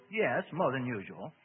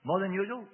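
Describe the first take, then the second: First: Irritated. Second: Louder, higher questioning tune on "More than usual". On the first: Demon answering the minister's question, irritated. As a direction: spell it out with mild irritation. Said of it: "He sounded irritated". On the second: Minister querying the demon, "More than usual" asked higher and louder. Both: A narrator's reading.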